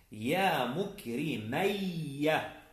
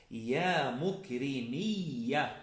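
First: "مكرمية" said mukrimayya, with ay; slow demo of "مكرمية" with a before doubled y; dual vowel pattern. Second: "مكرمية" said mukrimiyya, with a long i; slow demo of "مكرمية" with i before doubled y; plural vowel pattern. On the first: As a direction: draw out "مكرمية" slowly as mu-kri-MAY-ya. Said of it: "بالتثنية". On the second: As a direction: draw out "مكرمية" slowly as mu-kri-MIY-ya. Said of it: "في الجمع". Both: Shown as a demonstration.

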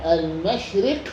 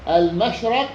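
First: المشرق with short i after the ر: al-mashriq; كسر الراء. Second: المشرق with short a after the ر: al-mashraq; فتح الراء. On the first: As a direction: say المشرق with a kasra on the ر. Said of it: "بكسر الراء". (المشرق بكسر الراء) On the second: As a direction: say المشرق with a fatha on the ر. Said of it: "والقياس فتحها فيهما". (المشرق بفتح الراء) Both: Shown as a demonstration.

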